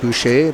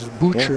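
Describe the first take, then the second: First: The name sounds like French 'boo-shay'. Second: The name sounds like the English word 'butcher'. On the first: This is the expected pronunciation of the spelling. "usually you think it's going to be Boucher" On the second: This is how one particular family says their name. "Some families pronounce that butcher"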